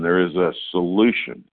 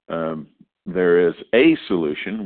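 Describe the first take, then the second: First: The word 'solution' is stressed. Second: The word 'is' is stressed. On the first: It is a real cure, not a placebo. "And we could put the emphasis on solution" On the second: A solution does exist. "The fact that a solution exists"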